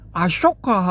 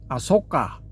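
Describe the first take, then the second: First: The second syllable begins with an sh sound. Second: The second syllable begins with a plain s sound. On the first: This follows the Devanagari form of the name. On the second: This follows the Pali form of the name.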